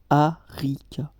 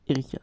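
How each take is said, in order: First: The name begins with an open 'ah' vowel. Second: The name begins with an 'eh' vowel. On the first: This is the name's own pronunciation. The speaker calls it right. "Ça se prononce Arika" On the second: This is how most people say the name. The speaker calls it wrong. "Mais tout le monde dit Erika"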